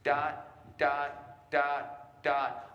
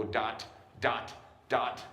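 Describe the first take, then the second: First: Sung, higher "dot", each note ringing briefly, then separated; sung, right-length staccato. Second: "dot" cut off hard by the tongue on the T; tongue-stopped. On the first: Director showing band staccato length, evenly chanted "dot". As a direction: sing even "dot" notes, letting each ring before the gap. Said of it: "playing them the right length". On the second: Director showing band what to avoid, tongue-stopped "dot". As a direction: stop each "dot" dead with a hard final T. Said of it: "I'm not a tongue stopper". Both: Shown as a demonstration.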